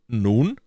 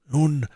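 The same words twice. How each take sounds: First: "Nun?" with a rising questioning tune. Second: "Nun" high and louder, arched then falling; answering NUN. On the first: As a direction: prompt the teller with a drawn, rising "Nun?". Listener prompting the storyteller. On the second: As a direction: take up "Nun" as an answer, pitched up. Storyteller answers the prompt. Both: A narrator's reading.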